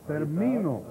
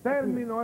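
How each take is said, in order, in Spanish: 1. El acento está en la segunda sílaba. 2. El acento está en la primera sílaba. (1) "En la I se acentúa" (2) "esa esdrújula"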